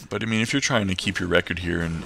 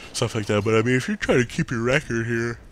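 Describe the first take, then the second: First: Said in the usual way. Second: Words stretched by a yawn. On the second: Real, not acted. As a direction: talk through a big yawn. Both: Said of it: "sorry, I'm yawning again".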